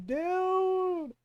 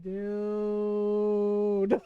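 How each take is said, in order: First: Higher drawn-out "dude"; appalled disbelief. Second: Long, low drawn-out "dude"; stunned disbelief. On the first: Sibling repeating the reaction to brother's blunder, appalled and high. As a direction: hold one long high note of disbelief. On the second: Sibling reacting to brother's blunder, stunned and low. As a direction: stretch it out low in appalled disbelief. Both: Retold or imitated.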